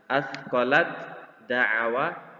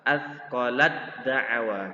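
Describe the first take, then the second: First: The t is pronounced separately before d. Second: The t merges fully into the following d. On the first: "Yang awalnya dibaca" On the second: "dibaca yang benar adalah"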